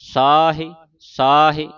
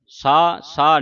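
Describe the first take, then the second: First: The word has an h sound and final vowel. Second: The word is clipped with no h sound. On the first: The speaker calls it right. "ਇਸ ਤਰ੍ਹਾਂ ਉਚਾਰਨ ਕਰਨਾ ਹੈ" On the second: The speaker calls it wrong. "ਸਾ ਸਾ ਨਹੀਂ ਪੜਨਾ"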